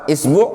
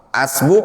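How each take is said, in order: First: The word begins with an i vowel. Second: The word begins with an a vowel. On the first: "Kemudian antum kasroh" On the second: "Kemudian antum fathah"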